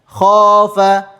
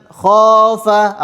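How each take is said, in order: No difference in how they are said.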